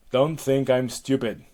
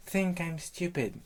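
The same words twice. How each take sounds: First: Loud, forceful warning; imperious rebuke; irritated Hera. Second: High, slow echo; high-pitched parroting; echoing nymph. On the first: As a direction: warn the nymph sharply. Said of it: "back to Hera". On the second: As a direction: repeat it back slowly in a high voice. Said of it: "you will repeat the last words". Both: Acted.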